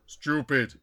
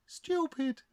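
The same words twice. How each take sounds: First: Caricatured spirit chief. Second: Very high, soft auntie voice; spirit auntie. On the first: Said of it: "Chief Hanging Berry, spirit guide". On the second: Dead auntie echoing the others, high soft voice. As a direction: echo it high and soft as an aunt. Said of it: "this is Auntie". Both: Acted.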